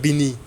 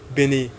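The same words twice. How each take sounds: First: It is pronounced the American way. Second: It is pronounced the Nigerian way. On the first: The speaker calls it wrong. "I said Benin like I'm like I'm like I'm an American" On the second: The speaker calls it right. "That's how you say it here in Nigeria"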